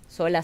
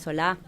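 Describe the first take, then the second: First: The stress is on the first syllable. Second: The stress is on the last syllable. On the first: This is the family's own form of the surname. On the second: This is the other bearer's form of the surname.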